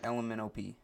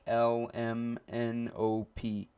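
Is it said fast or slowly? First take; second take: fast; slowly. First: It is said fast. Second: It is said slowly.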